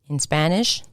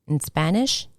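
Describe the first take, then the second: The two takes are said the same way.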